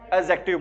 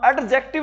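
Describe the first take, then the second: First: The d sound before j is left silent. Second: The d sound before j is clearly pronounced. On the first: The speaker calls it right. "वहां पर डी की sound क्या होती है? Silent होती है।" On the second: The speaker calls it wrong. "इसको क्या एडजेक्टिव नहीं बोलते"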